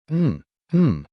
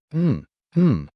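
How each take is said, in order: First: High muffled yell through a gag; louder gagged scream. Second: High muffled cry through a gag; gagged muffled scream. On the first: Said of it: "The Aragarian shouted louder". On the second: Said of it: "The Aragarian screamed in pain". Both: A narrator's reading.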